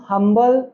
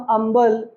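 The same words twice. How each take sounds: First: हम्बल with an audible H; modern sounded H. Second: अम्बल for humble, H dropped; outdated silent H. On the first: Teacher contrasting with the old way: हम्बल with H sounded. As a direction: voice the H in हम्बल clearly. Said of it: "pronounce करते हैं". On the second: Teacher showing what is no longer said: अम्बल without H. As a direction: begin अम्बल on the bare vowel. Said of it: "नहीं pronounce करते". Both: Shown as a demonstration.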